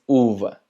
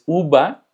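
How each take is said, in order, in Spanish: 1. La consonante del medio es sonido V. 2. La consonante del medio es sonido B. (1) "Es uva" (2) "si tú dices uva, no lo van a entender"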